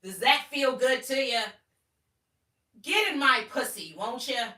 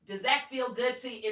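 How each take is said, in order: First: High and loud, almost shouting; loud pushy tone. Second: High, loud, hard question. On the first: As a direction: press the lines like a demand. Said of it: "In this tone, too, by the way". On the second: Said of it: "In this tone". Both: Shown as a demonstration.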